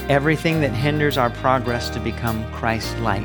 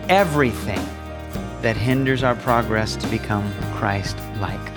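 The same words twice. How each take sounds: First: The word 'everything' is said without special emphasis. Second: The word 'everything' is said with strong emphasis.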